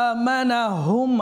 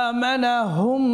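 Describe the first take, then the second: The two takes are said the same way.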